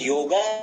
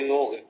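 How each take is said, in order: First: The word ends with an added 'a' vowel. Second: The word ends on the consonant 'g'. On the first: The speaker calls it wrong. "योग को योगा न बनाया जाए" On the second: The speaker calls it right. "योग ही बोलना शुद्ध होता है"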